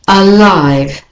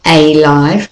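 First: Alive with a schwa start, uh-LIVE; right way. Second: Alive with a full AY, AY-LIVE; wrong way. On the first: Teacher models alive with a schwa. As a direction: alive begun with a weak uh. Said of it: "but alive". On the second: Teacher shows how not to say alive. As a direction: alive begun with a long AY. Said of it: "not alive". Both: Shown as a demonstration.

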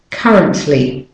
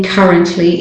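First: "currently" with the E reduced to "uh"; correct weak vowel. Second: "currently" with a full, stressed E, like cur-RENT-ly; wrong full vowel. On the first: Teacher models the right way for learners, "currently" with weak E. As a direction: say "currently" as CUH-runt-ly, stress up front. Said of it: "it's the weak syllable, the weak form". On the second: Teacher shows learners what to avoid, mispronounced "currently" with full E. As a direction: overpronounce the E in "currently" as a clear "eh". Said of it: "is not currently". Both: Shown as a demonstration.

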